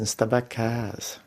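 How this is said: The vowels, especially the A, are drawn out. "A Ilha do Fogo arrasta mais os vogais. ... A letra A é maior"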